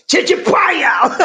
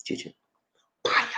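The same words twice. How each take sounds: First: High, drawn-out shout of "Chicha paya" as one phrase; rousing catchphrase yell; put together. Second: "Chicha" and "Paya" said slowly, one at a time; measured, separated syllables for learners; slow teaching demo. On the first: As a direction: call out "Chicha paya" joined up, stretched and high. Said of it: "Now let's put it together". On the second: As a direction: break it up for repeating, "Chicha", pause, "Paya". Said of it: "I'm gonna say it slow". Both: Shown as a demonstration.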